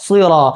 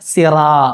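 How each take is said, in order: First: The s sound is heavy and resonant. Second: The s sound is plain and light. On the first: The speaker calls it right. "ഒരു മുഴക്കത്തോടു കൂടി എന്ത് ചെയ്യണം പറയണം" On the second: The speaker calls it wrong. "സാധാരണ മലയാളത്തിൽ പറയുന്ന പോലെ സിറാ, അങ്ങനല്ല"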